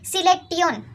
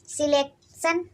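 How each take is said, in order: First: The word ends with a drawn-out 'tee-on' sound. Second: The word ends with a short 'shun' sound. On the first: The speaker calls it right. "तो सही का है? सिलेक्टियन" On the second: The speaker calls it wrong. "ये गलत है"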